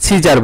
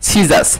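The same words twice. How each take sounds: First: "সিজার" with a final r sound; common mispronunciation. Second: "সিজাস" ending in an s sound; corrected pronunciation. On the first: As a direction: end "সিজার" on r, not s. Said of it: "ভুল উচ্চারণ করে থাকি". ("সিজার", শেষে র দিয়ে ভুল উচ্চারণ) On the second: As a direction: finish "সিজাস" on s, not r. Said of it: "আসলে এটা উচ্চারণ হবে". ("সিজাস", শেষে স দিয়ে সঠিক উচ্চারণ) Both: Shown as a demonstration.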